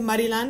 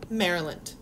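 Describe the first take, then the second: First: It is said with a Spanish accent. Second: It is said with a plain English accent. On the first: "you can say Maryland if you like" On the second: "you could just say something like hace calor en Maryland"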